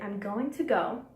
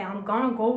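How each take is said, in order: First: 'Going to' is said fully and clearly. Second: 'Going to' is reduced to 'gonna'. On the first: The speaker calls it right. "articulate. ... Say" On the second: The speaker calls it wrong. "Don't say"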